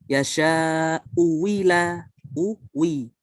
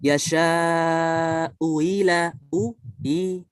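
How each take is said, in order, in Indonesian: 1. Hamza kedua berubah menjadi bunyi w yang jelas. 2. Hamza kedua dilunakkan, tidak diucapkan penuh. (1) "wajah kedua dengan ibdal" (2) "dengan tasil dulu"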